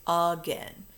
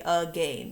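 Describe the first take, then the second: First: "again" said as "uh-GEN", short E; sight-word pronunciation. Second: "again" said as "uh-gain", rhyming with rain; long A in the second syllable of "again"; decoded by the rules. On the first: Teacher showing how the sight word is said, "again" as "uh-GEN". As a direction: rhyme the end of "again" with ten. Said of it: "So it is said". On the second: Teacher coding the word by its rules, "again" as "uh-GAIN". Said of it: "If we were going to code it, we would say". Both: Shown as a demonstration.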